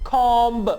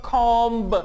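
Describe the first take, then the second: Both takes have the same delivery.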